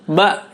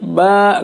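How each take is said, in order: First: The sound is released quickly without lengthening. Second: The sound is dragged out and lengthened. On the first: The speaker calls it right. "maka bacanya langsung saja, dilepas saja" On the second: The speaker calls it wrong. "jangan diseret ... nggak boleh"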